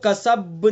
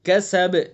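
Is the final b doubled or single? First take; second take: doubled; single. First: The final b is doubled and held. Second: The final b is single and stopped. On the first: The speaker calls it wrong. "इसको कसब नहीं पढ़ेंगे" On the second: The speaker calls it right. "तशदीद के बगैर इसको पढ़ेंगे, बस साकिन करेंगे"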